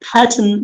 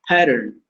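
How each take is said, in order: First: The r is silent and the t is clear. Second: The r is sounded and the t is flapped. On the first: "Pattern in British English" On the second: "In American, r is not silent, and double t is making a flip D sound"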